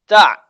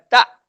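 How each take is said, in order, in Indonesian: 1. Suku kata "ta" berakhir pada vokal terbuka yang agak serak. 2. Suku kata "ta" berakhir dengan hentian glotal yang tajam. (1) "Tapi ini huruf ain" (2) "bukan tak ... Kalau tak, dia ada hamzah"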